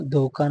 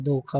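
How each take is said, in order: First: धोखा said with plain k, as dhoka; no puff of air in the k of धोखा; wrong consonant. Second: धोखा with aspirated kh; correct consonant. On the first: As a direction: say "dho-kaa" for धोखा. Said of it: "नहीं". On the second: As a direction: say "dho-khaa" for धोखा. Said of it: "होता है". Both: Shown as a demonstration.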